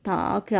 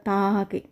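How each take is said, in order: The two takes are said the same way.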